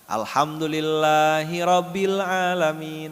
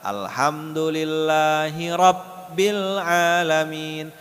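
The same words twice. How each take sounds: First: The b in Rabbil is short and single. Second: The b in Rabbil is held long, doubled. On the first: The speaker calls it wrong. "Orang sering salah" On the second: The speaker calls it right. "Yang benar"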